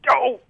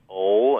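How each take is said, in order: First: The grunt is short and quick. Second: The grunt is drawn out and long.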